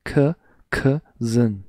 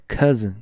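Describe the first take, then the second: First: C, cousin said very slowly, the c first on its own; sound split apart. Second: Said in the usual way. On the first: Shown as a demonstration. Teacher breaking it down for the class, drawn out. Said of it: "Vocês conseguem falar c". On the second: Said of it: "Vocês conseguem falar".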